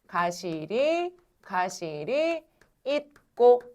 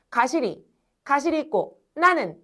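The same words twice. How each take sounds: First: Very slow 가시리, pause, 가시리 있고 as one chunk; correct phrasing. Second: Reads 가시리 / 가시리 있고 나는 as if split at every spacing; wrong phrasing. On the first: Teacher slowly models the right three-beat reading. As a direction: lay out 가시리 and 가시리 있고 slowly as separate beats. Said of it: "이렇게 읽으시면 됩니다". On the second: Teacher shows the class the wrong way to chunk the line. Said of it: "이렇게 읽어야 될 것 같지?". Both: Shown as a demonstration.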